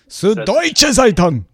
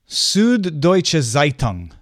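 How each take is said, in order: First: It is said in an angry, forceful tone. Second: It is said in a calm, neutral tone.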